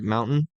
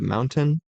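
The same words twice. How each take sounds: First: The T sound in the middle is dropped. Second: The T sound in the middle is pronounced. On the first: This is how people from Utah say it. "people from Utah don't pronounce their T's" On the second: This is the usual way to say it. "instead of"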